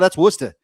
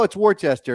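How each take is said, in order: First: It is pronounced the way locals would. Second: It is pronounced the way an outsider would. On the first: The speaker is from the area. "people in Massachusetts say, no, that's Worcester" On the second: The speaker is not from the area. "if you're not from Massachusetts, you're like, oh, it's Worcester"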